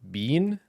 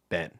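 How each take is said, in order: First: The word has a long 'ee' vowel, like bean. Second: The word has a short 'e' vowel, like Ben. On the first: "Is it bean?" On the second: "Or is it ben?"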